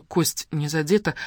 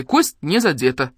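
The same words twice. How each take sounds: First: Said in the usual way. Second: Slow, emphatic «Кость», pitch swooping on «не задета»; doctor's loud pronouncement of «Кость не задета»; mustached man reporting. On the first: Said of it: "в кино слышала фразу". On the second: A narrator's reading. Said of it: "сообщил усатый".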